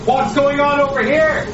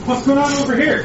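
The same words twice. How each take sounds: First: Loud high shout, rising at the end; shouting over engine. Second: Raised high shout over noise; shouting over engine. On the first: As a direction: yell it across the noisy room. Repeated louder over noise. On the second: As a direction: call out over the racket. Calling over kitchen noise. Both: Acted.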